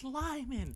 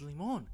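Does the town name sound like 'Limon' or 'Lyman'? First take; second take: Lyman; Limon. First: The name is said like 'Lyman'. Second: The name is read as it is spelled. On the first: This is how the locals say the name. The speaker calls it right. "no, it's Lyman" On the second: A newcomer reads the name off the sign. The speaker calls it wrong. "I literally pronounced limon"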